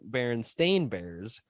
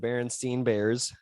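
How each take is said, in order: First: The name's last syllable sounds like 'stain'. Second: The name's last syllable sounds like 'stein'. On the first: This is the version research supports. The speaker calls it right. "with an A" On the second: This is the version many people remember. The speaker calls it wrong. "with an E"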